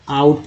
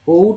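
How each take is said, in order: First: The vowel sounds like 'ow'. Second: The vowel sounds like 'oh'. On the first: The speaker calls it right. "आउट पढ़ रहे हैं" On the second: The speaker calls it wrong. "ओट नहीं पढ़ रहे"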